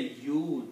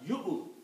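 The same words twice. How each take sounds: First: A long drawn-out vowel like English you. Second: A short vowel closed by a throat catch. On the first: The speaker calls it wrong. "Don't say English word Y O U" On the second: The speaker calls it right. "Combine Ya with the Hamza"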